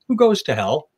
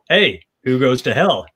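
First: It is asked in a sincere, curious tone. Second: It is asked in a smug, mocking tone.

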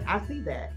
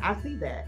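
First: It sounds curt and irritated. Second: It sounds curt and irritated.

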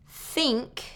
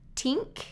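First: The word begins with a voiceless TH sound. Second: The word begins with a T sound. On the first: The speaker calls it right. "is voiceless at the beginning of the word" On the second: The speaker calls it wrong. "I hear tink or sink"

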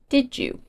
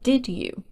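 First: The d and y merge into j. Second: The d and y are kept separate.

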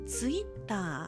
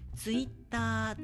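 First: The pitch rises in the middle, then falls. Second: The pitch stays flat without falling. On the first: "ツイッターって中高ですね、これ真ん中が高い" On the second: "ツイッターっていう平板化で言われる"

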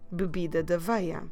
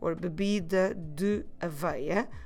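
First: Naturally, with de and aveia run together. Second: Slowly, with de and aveia kept apart. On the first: The speaker calls it right. "You see what I did?" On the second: The speaker calls it wrong. "So we say very slowly"

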